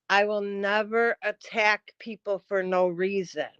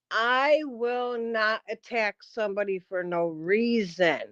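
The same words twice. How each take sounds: First: Said in the usual way. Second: Slow, deliberate, word by word; slower. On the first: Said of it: "let me repeat myself". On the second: Shown as a demonstration. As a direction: spell it out for slow listeners. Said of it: "let me say it a little slower".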